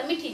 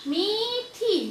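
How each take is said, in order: First: Said in the usual way. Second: मीठी with both ee vowels held long, pitched high; long drawn vowels. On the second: Shown as a demonstration. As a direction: stretch each ई in मीठी. (मीठी की दोनों ई की मात्राएं लंबी खींचकर) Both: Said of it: "मैंने ऐसा नहीं बोला".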